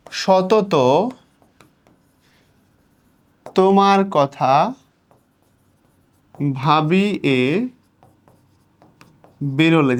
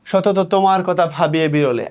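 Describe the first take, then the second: First: সতত, তোমার কথা, ভাবি এ, বিরলে slowly, with long pauses; piece-by-piece verse reading. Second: Said in the usual way. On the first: Shown as a demonstration. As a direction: break the line after সতত, কথা and এ, drawing the words out. কবিতা ভেঙে ভেঙে পড়া. (সতত তোমার কথা ভাবি এ বিরলে ধীরে, থেমে থেমে)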